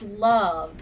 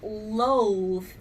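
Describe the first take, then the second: First: The vowel is a short U sound. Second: The vowel is a long O sound. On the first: The speaker calls it right. "it's love" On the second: The speaker calls it wrong. "the O is not saying O. It's not loathe"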